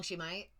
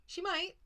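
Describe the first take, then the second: First: Said in the usual way. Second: Quick jab, pitched much higher; pointed retort. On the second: Real, not acted. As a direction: snap back a sharp, knowing answer. Answering the divine's worry.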